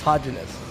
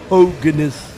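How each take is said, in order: First: The G is said soft, like a j. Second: The G is said hard, like in go. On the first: The speaker calls it wrong. "that's what I used to say" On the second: The speaker calls it right. "The G is enunciated"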